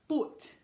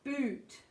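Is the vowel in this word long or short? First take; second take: short; long. First: The vowel is cut short. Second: The vowel is held long. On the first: The speaker calls it wrong. "Otherwise it becomes boot. We don't want boot" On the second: The speaker calls it right. "but keep it long"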